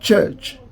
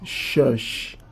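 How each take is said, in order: First: The word begins with a ch sound. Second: The word begins with a sh sound. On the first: The speaker calls it right. "they find it difficult to pronounce chi sound" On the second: The speaker calls it wrong. "This is what they are going to pronounce"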